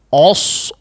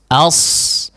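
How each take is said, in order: First: The first vowel is rounded and darkened. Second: The first vowel stays open and unrounded. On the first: The speaker calls it wrong. "Si huruf sebelumnya ikut menjadi tebal ya. Biasanya apa?" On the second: The speaker calls it right. "seharusnya tetap berada di posisi awal ya"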